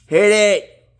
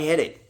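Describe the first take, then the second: First: Squeaky silly voice, much higher and louder; high squealing plea. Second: Said in the usual way. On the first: Real, not acted. Vlogger begging viewers to hit like, high playful squeal. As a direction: shriek it playfully, like a cartoon.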